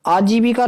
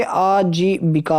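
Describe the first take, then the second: First: "आजीविका" quickly in one go, pitched up; run together. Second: "आजीविका" slowly as "aa-jee-bikaa"; syllable by syllable. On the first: Teacher showing students the mistake, आजीविका run together. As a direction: say आजीविका as brief "ajeevika". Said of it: "आजीविका नहीं होता बच्चे". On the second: Teacher giving students the correction, आजीविका slowly broken up. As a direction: draw out आजीविका, long aa and short i. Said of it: "बिका पर छोटी की मात्रा". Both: Shown as a demonstration.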